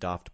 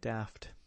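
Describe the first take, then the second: First: The vowel is the long British 'ah' sound. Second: The vowel is the short American 'a' sound. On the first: "I had always heard British people say the word daft" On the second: "now I say it apparently in the American way"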